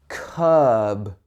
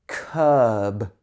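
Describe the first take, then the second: No difference in how they are said.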